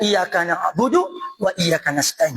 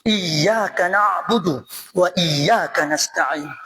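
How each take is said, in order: First: The y sound in iyyaka is short and single. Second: The y sound in iyyaka is held doubled. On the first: The speaker calls it wrong. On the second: The speaker calls it right. "Iyyaka ketas gitu"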